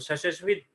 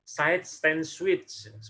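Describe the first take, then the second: First: The middle word is swallowed and slurred together. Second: Every word is articulated clearly and fully. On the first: The speaker calls it wrong. "Jadi bukan side switch" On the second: The speaker calls it right. "jelas di artikulasinya"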